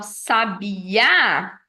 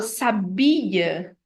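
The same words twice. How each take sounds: First: "sabiá" with a long, strong final Á; stress on last syllable. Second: "sabia" stressed on BI; stress on middle syllable. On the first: Teacher putting the accent at the end, sabi-Á stressed. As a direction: stretch "sabiá" and punch its last A. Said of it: "se eu coloco no final". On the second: Teacher showing the verb saber, sa-BI-a stressed in the middle. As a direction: lean on the I of "sabia", let the final A fall. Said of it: "é a conjugação do verbo saber". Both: Shown as a demonstration.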